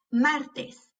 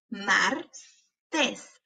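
First: Said in the usual way. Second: "Martes" slowly as mar, pause, tes; broken into syllables. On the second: Shown as a demonstration. Teacher helping hear each sound, syllable by syllable. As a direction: break "Martes" in two. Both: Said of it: "quiero que las quiebres entre sílabas".

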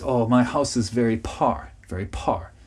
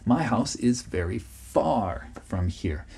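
First: "par" with a puffed P for "far". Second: "far" with a clear F, slow; correct F in far. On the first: Retold or imitated. Teacher imitating Korean learners saying "par" for "far". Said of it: "Another one they often say is". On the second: Shown as a demonstration. Teacher modelling the correct "far" after the wrong take. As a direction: model "far" slowly with a soft F. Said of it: "far is what you're trying to say".

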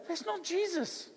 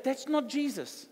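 First: "not" slow and hard, stressed high; firm denial. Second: "not" slow and firm, stressed; slow, hit "not" a second time; firm denial again. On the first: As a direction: lean on the word "not", slowly. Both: Retold or imitated. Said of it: "I go".

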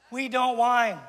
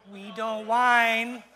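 First: Said in the usual way. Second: Very slow, drawn-out whiny voice; exaggerated, dragged-out whine; mock whining.

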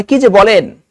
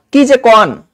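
First: Said in the usual way. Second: "কি যে কন" গ্রামের কথ্য টানে বলা; "কন" আঞ্চলিক ঢঙে, যেন গ্রামের বউ; আঞ্চলিক উচ্চারণ. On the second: Shown as a demonstration. ("কি যে কন" দেশি বুলিতে) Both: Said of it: "মানে কি যে বলেন".

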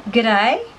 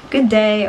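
First: "Good day" as "g'day", ending like "die"; Aussie greeting pronunciation. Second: Said in the usual way. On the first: Shown as a demonstration. Explaining the greeting to viewers, "Good day" as g'day. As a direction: say "Good day" as one word, guh-DIE. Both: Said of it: "is, like, good day".

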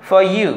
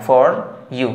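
First: Higher "for you", said as "faw you"; R silent. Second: "for you" with a hard R in "for"; R wrongly sounded. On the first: Teacher showing learners the correct way, R dropped. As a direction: run "for you" together with no R. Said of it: "এভাবে". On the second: Teacher showing what not to say, R pronounced. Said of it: "বলা যাবে না". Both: Shown as a demonstration.

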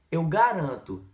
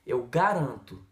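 Both takes have the same delivery.

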